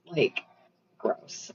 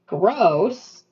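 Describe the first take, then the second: First: Whispered "gross" with no voice at all; "gross" repeated as a disgusted whisper. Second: Said in the usual way. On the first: Real, not acted. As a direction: drop the second "gross" to a bare breathy whisper. Disgust repeated under breath.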